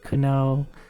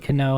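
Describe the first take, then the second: First: The final sound is fully pronounced. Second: The final sound is cut off quickly. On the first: The speaker calls it wrong. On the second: The speaker calls it right.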